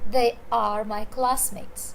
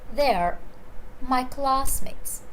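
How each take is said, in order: First: They and are are said as separate words. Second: They and are merge into one syllable.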